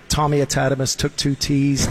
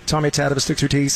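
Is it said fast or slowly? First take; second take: slowly; fast. First: It is said at a slower pace. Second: It is said at a fast pace.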